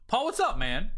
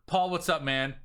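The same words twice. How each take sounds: First: Loose and friendly, pitched up and louder; casual buddy greeting. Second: Stiff scripted sales pitch opener; salesy message read. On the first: Shown as a demonstration. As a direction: greet him like an old pal. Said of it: "that's literally how I will text you". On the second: Retold or imitated. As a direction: read it like a canned sales template.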